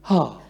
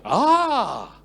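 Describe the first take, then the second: First: It sounds moved and touched. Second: It sounds surprised and amazed.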